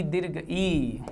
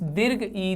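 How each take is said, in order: First: Slow, stretched दीर्घ ई, each sound held long; a teacher slowly stretching out दीर्घ ई; drawn-out teaching stress. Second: Said in the usual way. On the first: Shown as a demonstration. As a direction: draw out दीर्घ ई slowly so students hear the long ई. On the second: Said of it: "Rajni plus ईस".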